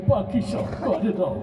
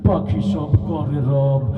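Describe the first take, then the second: First: It is said in a crying, tearful voice. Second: It is said in a menacing, frightening voice. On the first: "ও তো কাইন্দি কাইটে কয়" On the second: "তোরটা তোর বেশি ভয় শোনান লাগেছে"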